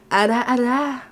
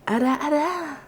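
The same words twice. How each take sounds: First: Teasing ara ara. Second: Ara ara tease. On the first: Streamer practising an anime tease for chat, coy and playful. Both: Shown as a demonstration. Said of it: "I'm not sure if I can good ara aras".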